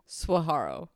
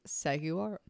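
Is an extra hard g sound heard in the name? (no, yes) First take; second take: no; yes. First: No extra hard g sound is added. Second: An extra hard g sound is added. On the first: The speaker calls it right. "You got it" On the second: The speaker calls it wrong. "You added an extra G"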